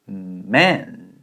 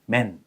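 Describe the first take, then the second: First: The m starts with a held hum. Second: The m is short, with no held hum. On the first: The speaker calls it right. "이렇게 발음을 하게 되는 원리입니다" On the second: The speaker calls it wrong. "이게 아니라"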